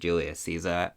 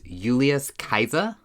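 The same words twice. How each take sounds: First: It is said with the usual English pronunciation. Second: It is said with the classical Latin pronunciation. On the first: "Everyone says Julius Caesar" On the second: "his name was actually pronounced Julius Caesar in Latin"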